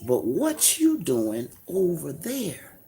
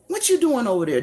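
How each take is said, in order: First: Drawn out, softer question; slow, dropped question. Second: Higher, pointed repeat of the question; higher pressing question. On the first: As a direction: lay the question down slowly. Repeated question, first take. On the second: Preacher pressing the same question at his listeners, higher. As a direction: press the question again, pitched up. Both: Real, not acted.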